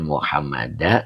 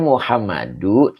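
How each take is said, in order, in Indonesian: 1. Kata itu diakhiri dengan vokal 'a'. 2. Kata itu diakhiri dengan vokal 'u'. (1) "tidak Muhammada" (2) "dibacanya Muhammadu"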